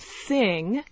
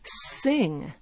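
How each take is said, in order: First: The word begins with a TH sound. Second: The word begins with an S sound.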